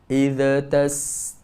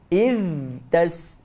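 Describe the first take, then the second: First: An extra vowel bounce follows the first word. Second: The first word ends with a puff of breath. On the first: "bila dia menjadikan huruf zal itu tawallud"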